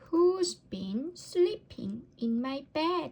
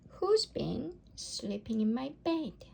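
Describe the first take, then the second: First: It is said in a tiny, squeaky voice. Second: It is said in a medium, ordinary voice. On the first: A little baby bear is speaking. "squeaked Baby Bear in her tiny voice" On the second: A middle-sized mother bear is speaking. "in her middle-sized voice"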